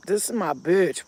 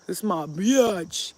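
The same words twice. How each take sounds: First: Said in the usual way. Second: BITCH stretched slowly into "bee-atch"; drawn-out emphasis. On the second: Real, not acted. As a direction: draw out "bitch" as a slangy two-syllable "biatch". Repeats it with drawn-out word.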